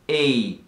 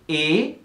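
First: The vowel glides toward a y sound. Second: The vowel stays pure with no glide. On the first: "whereas in the Netherlands, it's a ... So you move towards a ye at the end" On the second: "In Belgian Dutch, it's e"

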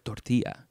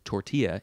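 First: It is said with a native Spanish pronunciation. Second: It is said with an anglicized American pronunciation. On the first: "instead of" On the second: "the casual American pronunciation"

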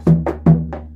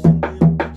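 The two takes are said the same way.

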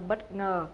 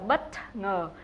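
First: The final consonant is cut off short. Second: The final consonant is clearly released. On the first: The speaker calls it right. "phát âm rất là ngắn gọn, đấy là bất ngờ" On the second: The speaker calls it wrong. "chứ không phải là bất ngờ"

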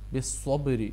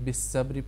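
First: The s sound is full and heavy. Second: The s sound is thin and light. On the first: The speaker calls it right. "सीन की आवाज़ ना आए बल्कि स्वाद जो है पुर अदा होगा" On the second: The speaker calls it wrong. "कई बिस सब्री पढ़ते हैं जो कि दुरुस्त नहीं है"

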